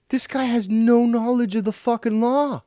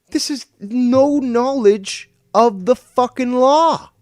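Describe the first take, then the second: First: Much higher, louder furious yell; pitched-up outraged shout. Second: Much higher, louder, slow screamed rage; drawn-out outraged scream. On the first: Furious rant at rival. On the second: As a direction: scream each word out slowly. Repeats it even harder. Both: Real, not acted.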